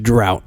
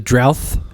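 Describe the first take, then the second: First: The word ends with a sharp t sound. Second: The word ends with a th sound. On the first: The speaker calls it right. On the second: The speaker calls it wrong.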